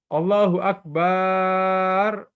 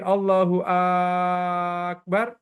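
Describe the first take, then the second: First: It is said as a plain statement. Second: It is said so it sounds like a question. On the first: God is the greatest. The speaker calls it right. "itu boleh" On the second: It asks whether God is the greatest. The speaker calls it wrong. "nggak boleh. Karena kalau Akbar, itu mempertanyakan"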